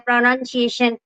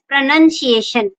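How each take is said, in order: First: The second syllable sounds like noun. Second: The second syllable sounds like nun. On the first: The speaker calls it wrong. "mostly people uh, say pr- pronunciation" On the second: The speaker calls it right. "but is it is pronunciation. Pra nun"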